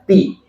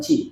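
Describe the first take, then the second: First: The syllable begins with a plain t sound. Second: The syllable begins with a ch-like sound. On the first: The speaker calls it right. "Biasa aja ti" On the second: The speaker calls it wrong. "Bukan ci"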